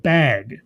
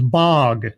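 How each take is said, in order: First: Said in the usual way. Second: "bog" with an open ah vowel; BAG pronounced bog. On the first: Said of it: "she doesn't say it with the ah sound". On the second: Retold or imitated. Reviewer imitating how Layla says bag, open-voweled "bog". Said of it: "doesn't say it with the ah sound".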